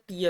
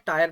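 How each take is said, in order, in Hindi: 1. स्वर 'ee' है, 'teer' की तरह। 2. स्वर 'ai' है, 'tire' की तरह। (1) "भाई ये टीयर होता है" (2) "काफी लोग ये टीयर को क्या पढ़ते हैं, टायर पढ़ते हैं"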